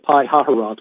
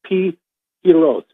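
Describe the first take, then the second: First: The name is said with an extra 'ha' syllable. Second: The name is said without the extra 'ha' syllable. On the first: The speaker calls it wrong. "which is the way I've been saying it" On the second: The speaker calls it right. "in Hebrew it's a Pi Hiroth"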